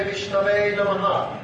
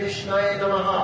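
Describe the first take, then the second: First: "Vishnave" said with a v before the last vowel; learned, correct pronunciation. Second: "Vishnaye" said with a y before the last vowel; unlearned mispronunciation. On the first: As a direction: say "Vishnave", ending in -nave. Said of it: "learned Vaishnava will say". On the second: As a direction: say "Vishnaye", ending in -naye. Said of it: "who is not very learned". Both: Shown as a demonstration.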